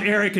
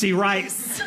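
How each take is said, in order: First: Said in the usual way. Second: "E. Rice" split as ee-RICE; long E, then "Rice" as its own word; wacky name variation. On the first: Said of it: "all these wacky variations". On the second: Acted. Correcting someone on Eric, "E. Rice" in two pieces. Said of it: "My name is not Eric".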